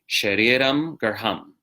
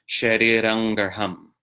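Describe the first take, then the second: First: The first word ends with an m sound. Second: The first word ends with an n sound. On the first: This is the ordinary spoken form. "The spoken, you say" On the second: This is the form used when singing. "Singing, you say"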